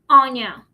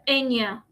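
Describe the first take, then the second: First: The name begins with an open 'ah' vowel. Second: The name begins with an 'eh' vowel. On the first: The speaker calls it right. "that's how you pronounce my name" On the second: The speaker calls it wrong. "instead of"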